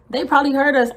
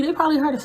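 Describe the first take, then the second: First: Said in the usual way. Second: "They probably heard us" whispered. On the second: Retold or imitated. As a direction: drop to a breathy whisper on "probably".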